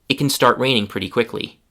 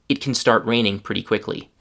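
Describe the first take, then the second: The two takes are said the same way.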